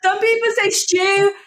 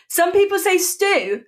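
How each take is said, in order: First: High, indignant STEW as "shtyoo"; indignant pronunciation demo. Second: High, indignant STEW as "stoo"; indignant pronunciation demo. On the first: Arguing with the teacher's correction, indignant STEW as "shtyoo". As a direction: say STEW with a "sh" in it, pitched right up. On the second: Arguing with the teacher's correction, indignant STEW as "stoo". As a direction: say STEW with a clean "st", still high-pitched. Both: Shown as a demonstration. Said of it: "I'm still angry about that".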